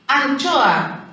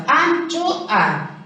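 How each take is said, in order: First: Said in the usual way. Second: "Anchoa" in three beats, An, cho, a; teacher separating "Anchoa" as an-cho-a; split into syllables. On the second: Shown as a demonstration. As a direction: break "Anchoa" apart syllable by syllable. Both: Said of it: "Tres sílabas".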